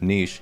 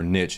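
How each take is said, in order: First: It is said with the French-style pronunciation. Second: It is said with the American pronunciation. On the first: "instead of niche" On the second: "American English is ... saying"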